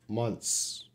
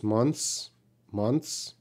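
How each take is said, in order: First: "Months" without the th, like "munts"; th dropped. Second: "months" with the th there but highly reduced. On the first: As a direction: cheat on "Months" by skipping the th. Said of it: "don't try to pronounce the T H sound". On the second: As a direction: say "months" with a barely-there th before the s. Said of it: "but it's highly reduced". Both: Shown as a demonstration.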